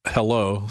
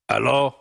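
First: Said in the usual way. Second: Lightly imitated bishop answering the phone; bishop's usual hello. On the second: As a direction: answer like the bishop, only slightly put on. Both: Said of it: "Which was his normal hello".

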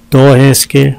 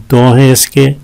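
No difference in how they are said.

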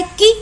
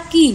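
First: की said with extra force; stressed की. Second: की said with less force; unstressed की. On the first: Teacher showing students a stressed syllable, extra force on की. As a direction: put more stress on की. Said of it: "हम की पर देखिए ज़्यादा जोर लगा रहे हैं". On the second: Teacher showing students an unstressed Hindi syllable, light stress on की. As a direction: ease off the stress on की. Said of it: "हम कम यहाँ पर स्ट्रेस लगा रहे हैं". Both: Shown as a demonstration.

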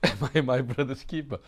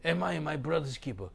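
First: A touch of Cain's sneering, loud; mocking Cain. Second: A light hint of Cain's sneer; mocking Cain. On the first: Preacher mimics Cain answering God, lightly sneering. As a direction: toss the question off like careless Cain. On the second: Preacher quotes Cain again, barely voiced. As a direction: read it as Cain's careless question. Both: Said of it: "He speaks strangely".

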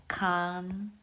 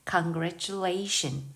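First: Said in the usual way. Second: "congratulation" drawn out syllable by syllable, stress near the end on "la"; slow stressed model. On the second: Shown as a demonstration. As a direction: stretch "congratulation" slowly and lean on the late "la". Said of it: "아주 뒤에 강세가 있으니까". ("congratulation"을 아주 천천히, 뒤쪽 강세를 살려서)

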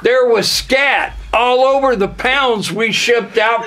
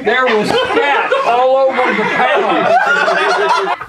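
First: Said in the usual way. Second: Slow, laughing, higher delivery; giggling slow version; laughing through it. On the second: Acted. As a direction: crack up while saying it slowly. Retakes line laughing.

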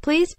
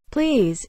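First: High, rising narrated plea; desperate plea. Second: Mocking plea, high then falling; sarcastic drop from a high pitch. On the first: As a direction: beg desperately, pitch climbing. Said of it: "his voice rising in desperation". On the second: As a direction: mimic begging with sarcasm. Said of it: "Gally whispered sarcastically". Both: A narrator's reading.

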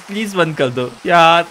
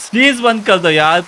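First: Said in the usual way. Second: Raised pleading plea ending on a rise. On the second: Real, not acted. Gamer pleading with the rain, rising plea. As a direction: beg with an upward lilt on प्लीज.

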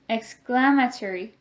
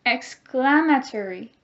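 First: Said in the usual way. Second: Louder model "Exclamatory"; choral repeat. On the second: Shown as a demonstration. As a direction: lead the class in the word. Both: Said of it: "Can you say it with me?".

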